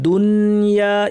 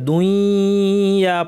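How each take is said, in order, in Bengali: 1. ন ও য় প্রতিটি আলাদাভাবে স্পষ্ট করে উচ্চারিত হয়। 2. ন ধ্বনিটি পরের য় ধ্বনির সঙ্গে মিশে যায়। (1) "এটা পড়া হবে দুনিয়া ইজহার করে" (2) "এটা দুইয়া পড়া হবে না"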